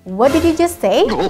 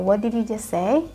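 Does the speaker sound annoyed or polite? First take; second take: annoyed; polite. First: It sounds annoyed, with the pitch pushed upward. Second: It sounds polite and apologetic, in a serious tone. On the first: The speaker is angry about what was said. "ekspresi marah atau kayak apa di istilahnya jengkel, ... intonasinya agak agak dikasih naik" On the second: The speaker genuinely did not catch what was said. "yang pertama kita bilang oh, oh I'm sorry"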